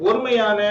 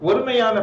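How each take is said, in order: The two takes are said the same way.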